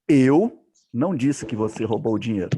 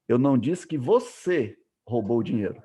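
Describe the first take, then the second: First: The word eu is stressed. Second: The word você is stressed. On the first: Someone else said it. "Alguém que falou" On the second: Someone else stole it. "eu estou dizendo que outra pessoa que roubou"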